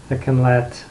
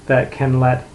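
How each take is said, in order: Both takes have the same delivery.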